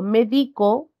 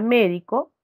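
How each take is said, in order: First: The stress is on the second syllable. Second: The stress is on the first syllable. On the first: "Ya se encuentra en la penúltima sílaba" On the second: "la mayor fuerza de voz está en esta sílaba, última, penúltima, antepenúltima"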